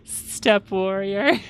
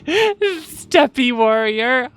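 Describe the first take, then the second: First: The first word has one syllable, like step. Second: The first word has two syllables, like steppy.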